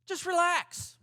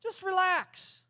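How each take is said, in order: First: High, loud mock soothing; sarcastic calm-down line, pitched up. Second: Higher and drawn out, slow and mocking; slow sarcastic. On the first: Preacher mocking a useless calm-down line, mock soothing. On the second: Preacher repeating the useless advice, slower and mocking. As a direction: stretch it out, mockingly sweet. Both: Shown as a demonstration. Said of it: "That fixes things, doesn't it?".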